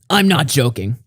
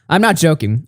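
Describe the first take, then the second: First: It is read in a serious voice. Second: It is read in a mocking voice.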